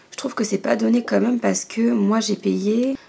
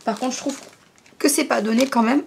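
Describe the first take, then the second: First: Said in the usual way. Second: Holding back a hiccup; words caught between hiccups; suppressing hiccups. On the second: Real, not acted. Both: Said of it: "j'ai le hoquet".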